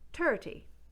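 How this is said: It begins with a hard t sound. "those th sounds will become t"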